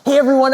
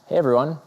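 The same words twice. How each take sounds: First: The greeting sounds genuinely excited and warm. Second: The greeting sounds flat and insincere. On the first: The speaker truly wants to be there. "Meaning number one was genuine. I was actually really excited to be here" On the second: The speaker does not really want to be there. "you could see that I clearly wasn't"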